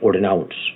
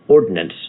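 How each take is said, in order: First: It uses an older, French- or German-influenced pronunciation. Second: It uses the ordinary modern pronunciation. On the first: "I will say ordinance" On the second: "I will often not say ordinance"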